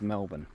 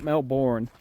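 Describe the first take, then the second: First: It is said the Australian way. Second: It is said the American way.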